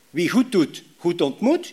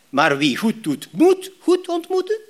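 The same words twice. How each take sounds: First: Said in the usual way. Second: "moeten" rising much higher and slow, questioning; doubting question. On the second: Shown as a demonstration. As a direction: stretch the second half into a sceptical question. (twijfelend hoog en traag gevraagd) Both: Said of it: "Begrijp je het verschil?".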